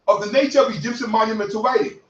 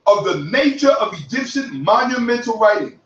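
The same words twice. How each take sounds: First: A brisk first pass over the definition; quick read. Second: "Of the nature of Egyptian monumental writing" drawn out with weight on each word; slow emphatic repeat. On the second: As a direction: repeat it slowly so it sinks in. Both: Shown as a demonstration. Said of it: "You heard that".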